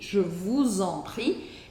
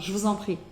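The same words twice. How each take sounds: First: It is said slowly with every syllable articulated. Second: It is said quickly with the syllables run together. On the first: "a gente não articula tanto assim no cotidiano" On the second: "eles podem falar isso mais rápido"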